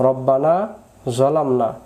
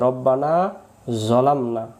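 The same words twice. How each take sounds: The two takes are said the same way.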